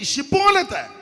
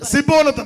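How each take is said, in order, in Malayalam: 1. ഈ വാക്ക് 'sh' ശബ്ദത്തിൽ തുടങ്ങുന്നു. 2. ഈ വാക്ക് 's' ശബ്ദത്തിൽ തുടങ്ങുന്നു. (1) "ഈ ശിബോലത്ത് എന്ന് പറയാൻ പറയുമ്പോ" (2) "ഇവരുടനെ സിബോലത്ത് എന്ന് പറയും"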